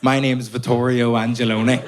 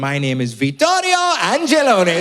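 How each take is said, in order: First: It is said in a Belfast accent. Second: It is said in an Italian accent.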